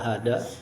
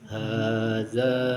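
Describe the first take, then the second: First: The middle consonant is a plain hard 'd'. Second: The middle consonant is a soft 'dh' sound. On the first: The speaker calls it wrong. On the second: The speaker calls it right.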